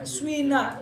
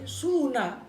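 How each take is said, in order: First: The first vowel blends u and i. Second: The first vowel is a pure u. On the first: "Ismam itu dibaca swina, yaitu harokat doma dengan kasroh kumpul" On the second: "Ada domah murni berarti suna"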